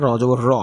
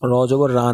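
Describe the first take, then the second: First: Heavy "র", vowel darkened towards o; thick vowel. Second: Unrounded "রা", aa instead of aw; wrong thin vowel. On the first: Teacher corrects the mistake for students, "র" with aw. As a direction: end "র" on a rounded aw. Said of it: "আটা ও হয়ে যায়". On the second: Teacher shows students the mistake, "রা" with open aa. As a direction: end "রা" on an open aa. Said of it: "র জবর রা না". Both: Shown as a demonstration.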